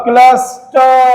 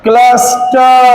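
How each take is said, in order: No difference in how they are said.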